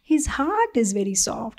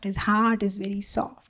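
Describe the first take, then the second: First: Said in the usual way. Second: Softly repeated. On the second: Shown as a demonstration. Speaker repeats the guru's softness, more quietly. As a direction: let the repeat sink, gentler. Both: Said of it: "humbly said".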